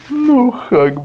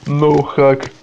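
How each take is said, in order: First: The first word has a plain 'oo' vowel. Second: The first word has a diphthong, like 'noh'. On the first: The speaker calls it right. "а ну хак" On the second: The speaker calls it wrong. "Не ноу"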